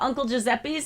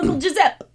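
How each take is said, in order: First: The name ends with an s sound. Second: The final s sound is dropped. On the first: "instead of Uncle Giuseppe's" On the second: "he goes, I'm going to Uncle Giuseppe"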